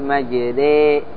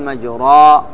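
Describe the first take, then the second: First: The r is light, with the vowel leaning toward i. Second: The r is heavy, with an open a vowel. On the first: "هذه إيش؟ مرققة" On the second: "هذا مفخمة"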